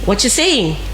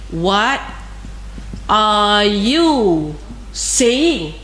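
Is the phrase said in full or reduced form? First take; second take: reduced; full. First: The word are is dropped in quick speech. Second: Every word is said fully, including are. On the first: This is the fluent, casual spoken way. "if you can speak fluently English, then you are going to say" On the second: This is the formal, written way. "Ini adalah dalam formal"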